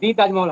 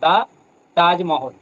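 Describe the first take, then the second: First: The word 'the' is said as 'thee'. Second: The word 'the' is said as 'thuh'. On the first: The speaker calls it wrong. "দি তাজমহল হয় না।" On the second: The speaker calls it right. "এখানে দিটা বলা যাবে না"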